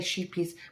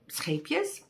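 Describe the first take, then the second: First: The first syllable sounds like 'sheep'. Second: The first syllable sounds like 'ship'. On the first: The speaker calls it wrong. "English people reading it think it's sheep. They say sheepies" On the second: The speaker calls it right. "that's how you pronounce Scapias"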